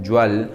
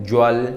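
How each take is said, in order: Both takes have the same delivery.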